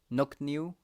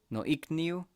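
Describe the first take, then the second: First: The vowels merge into a single O. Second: Both vowels are kept as separate sounds.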